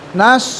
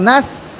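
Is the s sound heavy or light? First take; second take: heavy; light. First: The s sound is heavy and emphatic. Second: The s sound is light and plain. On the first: The speaker calls it right. "nas bukan nas" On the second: The speaker calls it wrong. "bukan nas"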